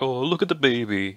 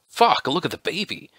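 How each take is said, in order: First: It sounds delighted and affectionate. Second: It sounds terrified and disgusted.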